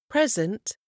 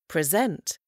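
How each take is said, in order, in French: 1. L'accent est sur la première syllabe. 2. L'accent est sur la deuxième syllabe. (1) "Quand le mot est accentué sur la première syllabe, c'est un nom" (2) "Quand le même mot est accentué sur la deuxième, c'est un verbe"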